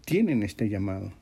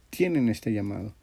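The two takes are said the same way.

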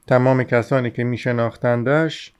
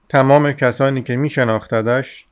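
No difference in how they are said.

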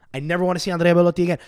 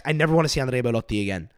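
First: Faster, punchier repeat; more emphatic repeat. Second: Said in the usual way. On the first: Real, not acted. Telling viewers he is done with Belotti, emphatic. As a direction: hammer it home the second time.

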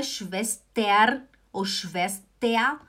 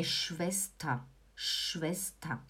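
First: "Schwester" as shves-TER with R, then shves-TE-A; slow, overdone final syllable in "Schwester"; wrong endings. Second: Low, soft "Schwester" ending in "ta"; correct pronunciation. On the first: Teacher showing mistakes, "Schwester" ending "ter", then "tea". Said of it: "Não é Schwester ou Schwester". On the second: Teacher giving the right form, soft "Schwester" with final "ta". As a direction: say "Schwester" gently as SHVES-ta, no R. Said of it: "é Schwester". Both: Shown as a demonstration.

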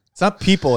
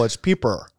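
First: Said in the usual way. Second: "peeper" with -er replacing the -le of people; mock correction. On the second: Shown as a demonstration. Host explaining it's not people, mock-pedantic "peeper". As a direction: land on "peeper" as the supposed correct word.

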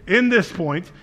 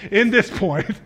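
Both takes have the same delivery.

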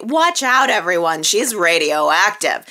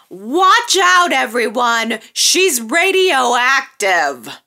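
First: Said in the usual way. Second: Hammed-up dramatic warning; dramatic quote. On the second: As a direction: announce it like a big reveal, stretching radioactive. First quote of the line.

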